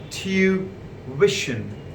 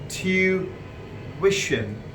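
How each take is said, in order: Both takes have the same delivery.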